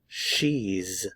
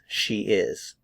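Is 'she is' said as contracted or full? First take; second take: contracted; full. First: It is said as one contracted syllable. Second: It is said as two full words.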